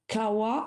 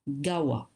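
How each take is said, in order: First: The word begins with a K sound. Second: The word begins with a G sound. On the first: The word stands alone. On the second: The word is joined to a preceding word. "with another word become Gawa"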